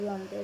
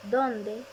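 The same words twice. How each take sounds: First: Said in the usual way. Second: Dónde with a stressed first syllable; accented dónde. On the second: Shown as a demonstration. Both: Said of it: "tilde para distinguirlas".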